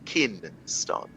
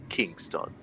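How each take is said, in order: First: The middle has a plain n sound. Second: The middle has an ng sound. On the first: The speaker calls it wrong. "we now say Kinston" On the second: The speaker calls it right. "we can't say Kingston"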